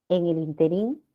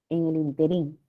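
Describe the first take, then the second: Both takes have the same delivery.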